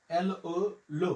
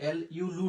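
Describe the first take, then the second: First: এল ও blended into লো, rounded o; correct syllable. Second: লু with a u sound, the wrong one; এল ইউ said as লু to show the error; wrong syllable. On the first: Teacher giving students the right French syllable লো. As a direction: say লো with a clear open o, not লু. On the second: Teacher warning students against saying লু. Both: Shown as a demonstration. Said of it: "এটা কিন্তু এল ইউ লু না".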